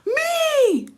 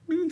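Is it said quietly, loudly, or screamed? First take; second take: screamed; quietly. First: It is screamed. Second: It is said at a normal, quiet volume.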